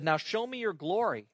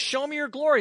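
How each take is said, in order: First: Said in the usual way. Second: Higher and louder, urgent; eager plea. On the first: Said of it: "Then Moses said". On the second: Retold or imitated. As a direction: push Moses' bold ask. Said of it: "Here he says".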